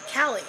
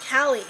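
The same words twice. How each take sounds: First: The word is said with an English L sound. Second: The word is said with an English L sound.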